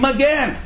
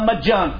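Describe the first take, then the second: First: The second syllable has an 'e' vowel. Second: The second syllable has an 'a' vowel. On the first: It sounds like the Hebrew word for 'shield'. The speaker calls it wrong. "אומרים מגן. מה מגן? מגן זה מילה עברית, מילה אחרת לגמרי" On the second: It is the Aramaic word meaning 'for free'. The speaker calls it right. "המילה מג'ן, חינם"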